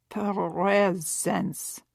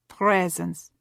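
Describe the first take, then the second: First: "Presence." said with the R swallowed, as pheh-zence; mock-Russian "Presence." dropping the R after the p, rising at the end. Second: Said in the usual way. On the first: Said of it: "Her attempt to swallow the R in the same way that Savone would have done". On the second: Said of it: "swallow the R".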